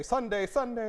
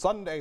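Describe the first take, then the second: First: Higher, booming sports announcer voice; Al Roker announcer voice. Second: Said in the usual way. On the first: Shown as a demonstration. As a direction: sing out the Sundays like a TV weatherman. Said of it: "you were doing a very good job of sounding like an announcer". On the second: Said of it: "make my voice sound like Al Roker's when he does Sunday".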